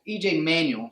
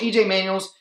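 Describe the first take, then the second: First: Host fixes the quarterback's name, clean Manuel ending on l; corrected name. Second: Host slips an S onto the quarterback's name, Manuels with a buzzing z; name with an extra S. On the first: E J Manuel, the final l left bare. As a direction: say E J Manuel, no S at the end. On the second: E J Manuels with a tacked-on z ending. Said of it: "sorry, it's my accent". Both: Real, not acted.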